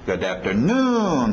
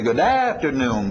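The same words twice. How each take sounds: First: The main beat falls on the last syllable. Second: The main beat falls before the end. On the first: The speaker calls it right. "batendo lá no finalzinho" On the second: The speaker calls it wrong. "A tendência vocês vão querer dizer"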